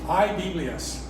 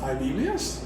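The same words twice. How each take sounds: First: The pitch falls at the end. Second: The pitch rises at the end. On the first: It states that there are Bibles. "There are Bibles" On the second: It asks whether there are any Bibles. "Do you have any Bibles? That that inflection"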